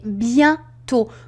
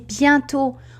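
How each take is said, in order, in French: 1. Une pause sépare bien de tôt. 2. Le mot est prononcé vite, sans pause. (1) "pour que vous fassiez la différence" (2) "j'ai prononcé bientôt euh, rapidement"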